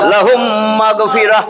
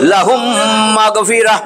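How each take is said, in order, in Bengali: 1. শেষ শব্দটি 'h' ধ্বনি দিয়ে শেষ হয়। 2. শেষ শব্দটি 'h' ধ্বনি দিয়ে শেষ হয়।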